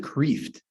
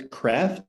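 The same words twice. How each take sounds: First: Kreeft with a long ee, like "kreef-t"; how I say Kreeft. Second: Kreft with a short e, like "left"; other way to say Kreft. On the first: Teacher giving his own way to say Kreeft, long ee. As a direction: stretch the vowel in Kreeft to a long ee. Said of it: "I pronounce it Kreeft". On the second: Teacher offering the class the other Kreft, short e. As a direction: clip the vowel in Kreft short. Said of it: "but if it's Kreft". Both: Shown as a demonstration.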